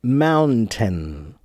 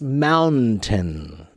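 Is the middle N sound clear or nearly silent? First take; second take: clear; clear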